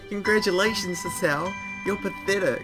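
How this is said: It is said in a put-on imitated voice.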